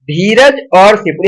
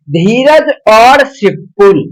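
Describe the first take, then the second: First: Said in the usual way. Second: Very slow, every word spaced out; slow dictation. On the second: Shown as a demonstration. Teacher dictating an example to students, very slow. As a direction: spell out धीरज और सिपुल slowly for notes. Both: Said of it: "जैसे कि देखिएगा".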